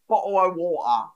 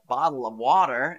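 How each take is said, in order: First: It is said in a British accent. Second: It is said in an American accent. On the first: "the British meme guy is going" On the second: "in American"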